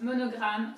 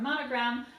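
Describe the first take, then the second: First: "monogram" with a French throaty R; French-accented "monogram"; French pronunciation. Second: Said in the usual way. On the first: Shown as a demonstration. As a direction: say "monogram" the French way, even syllables. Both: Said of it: "in French is pronounced monogram".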